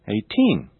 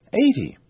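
First: Put-on "eighteen" stressed on TEEN; natural final stress. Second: "eighty" stressed on a high EIGH; natural first-syllable stress. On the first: Teacher now saying them naturally, "eighteen" stressed on TEEN. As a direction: put the weight on the last syllable of "eighteen". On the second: Teacher now saying them naturally, "eighty" stressed on EIGH. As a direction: put the weight on EIGH in "eighty". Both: Shown as a demonstration. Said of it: "Now I'll say them naturally".

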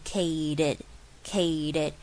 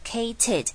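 First: CATED slowly, with the t softened to a d, "kay-ded"; T念成D. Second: CATED with a hard, crisp t, "kay-ted"; over-articulate the t in "cated"; 直接念T. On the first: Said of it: "念成像是D E D". (cated慢慢念成像ded) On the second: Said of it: "不要傻傻的直接念cated". (cated的T刻意念得很清楚) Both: Shown as a demonstration.

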